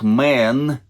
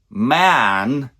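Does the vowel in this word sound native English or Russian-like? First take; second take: Russian-like; native English. First: The vowel is closer, like the vowel in 'bed'. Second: The vowel is open, like the vowel in 'cat'. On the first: The speaker calls it wrong. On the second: The speaker calls it right.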